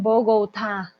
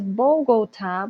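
First: "Bogotá" slow, with a clear final stressed "tá"; careful teacher's "Bo-go-TÁ"; model pronunciation. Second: "Bogotá" with gliding vowels, "Bougoutá"; accented error "Bougoutá" for "Bogotá"; wrong pronunciation. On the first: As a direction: say "Bogotá" slowly with the t pronounced and weight on the last a. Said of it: "digan Bogotá". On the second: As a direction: mispronounce "Bogotá" with foreign "ou" sounds for each o. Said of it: "pero no es Bogotá". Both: Shown as a demonstration.

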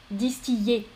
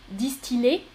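First: Distiller as "dis-ti-yé". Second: Distiller as "dis-ti-lé", rising. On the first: Teacher repeats second choice, distiller with Y. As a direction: replace L with a Y glide in distiller. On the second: Teacher repeats first choice, distiller with L. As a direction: clear L in distiller. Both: Shown as a demonstration. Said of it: "Donc, L ou Y".

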